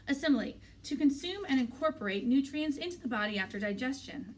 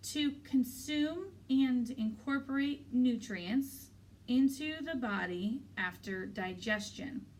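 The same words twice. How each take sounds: First: Confident recitation of a definition; a touch of pride, higher and brisk. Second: Drawn-out, deliberate recitation, word by word; very slow, over-careful American pronunciation; slow, careful enunciation. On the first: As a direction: answer the teacher confidently. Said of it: "I say confidently". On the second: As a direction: swirl the tongue slowly round each word to sound American. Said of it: "slowly swirling my tongue around the words". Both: A narrator's reading.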